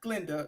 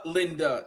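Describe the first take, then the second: First: The G blends straight into Linda. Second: The G is its own separate syllable. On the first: The speaker calls it wrong. "not Glinda" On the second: The speaker calls it right. "G Linda, not Glinda"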